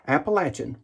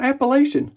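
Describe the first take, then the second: First: Appalachian with LATCH in the middle; preferred pronunciation of Appalachian. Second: High-pitched Appalachian with a LAY-shun ending; wrong pronunciation of Appalachian. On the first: [name] insisting on his version, Appalachian with a short A as in "latch". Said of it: "It's not Appalachian". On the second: [name] rejecting the wrong name, Appalachian with a long A as in "lay". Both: Shown as a demonstration.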